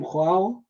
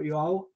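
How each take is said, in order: First: First guess at saying Joao; tentative pronunciation. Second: Second, questioning guess at Joao; alternative pronunciation. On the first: Asking colleague how to pronounce his name, tentative pronunciation. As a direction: try one way of saying "Joao". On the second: Asking colleague which name is right, alternative pronunciation. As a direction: offer another way of saying "Joao". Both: Shown as a demonstration. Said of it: "how do you pronounce your name".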